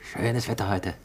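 It sounds cheerful and eagerly looking forward. The speaker is a holidaymaker anticipating a bike trip. "Ein Urlauber, der sich auf einen Radausflug freut"

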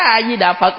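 It is said sharply and harshly, like scolding. The speaker greets the monks the way one scolds a spouse. The speaker calls it wrong. "nạt chồng quen rồi vô chùa nạt mấy thầy"

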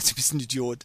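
It is said casually and lightly, in passing. It is meant jokingly or sarcastically, not as an attack. "aber so ein Beiläufer"

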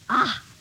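It sounds disgusted.

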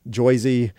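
It is said in a New Jersey accent.

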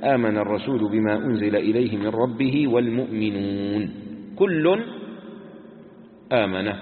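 The pause comes right after the word al-mu'minun. The believers join the Messenger; all includes both. The speaker calls it right. "فعلى الأول يوقف على المؤمنون"

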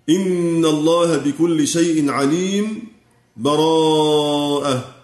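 A brief silent break comes before the last word. "أو السكت يعني بدون تنفس"

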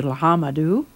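The name is pronounced the English way. This is how English speakers changed it.

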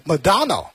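It is said with an English pronunciation. "发音英文的话是"

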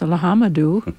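The name is said with an American accent.

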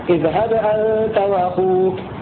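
The first word runs straight into the next. "ترك السكت"

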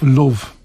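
The word is said in a Liverpool accent. "Right from Liverpool"

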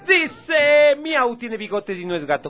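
It is said in a very euphoric tone. "Ahora lo voy a decir así súper eufórico"

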